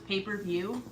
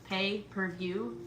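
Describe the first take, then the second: First: The first two words blend into 'paper'. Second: It is said as three separate words. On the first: The phrase is taken as one word. The speaker calls it wrong. "I thought it was one word, pay-per-view. Paper" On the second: The phrase is taken as three words. The speaker calls it right. "It's three words"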